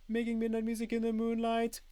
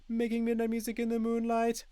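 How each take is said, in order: No difference in how they are said.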